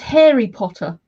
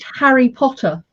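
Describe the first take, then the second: First: It is said in an American accent. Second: It is said in a British accent.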